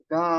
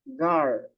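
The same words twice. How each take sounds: First: "Ga" with long a and no r; double A. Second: "Gar" with an r closing the open a. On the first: Teacher shows two A's, "Ga" held without r. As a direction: open "Ga" out, leaving off the r. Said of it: "Ga, dalawang A". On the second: Teacher compares sounds for girl, "Gar" with r. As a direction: say "Gar" keeping the final r. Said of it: "magiging ang sounds niya na yan". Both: Shown as a demonstration.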